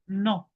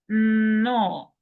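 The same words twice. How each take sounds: First: The sounds are cut short. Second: The sounds are stretched out long. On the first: "If it was just one N and one O, we would have just dropped it there" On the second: "we are going to be stretching"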